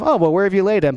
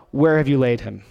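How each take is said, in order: First: Light, offhand shrug of a question; casual, offhand. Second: Lower, steely and resolved; stony, determined. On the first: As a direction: toss it off casually. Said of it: "Not kind of". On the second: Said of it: "with a stony, determined look in his face". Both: Shown as a demonstration.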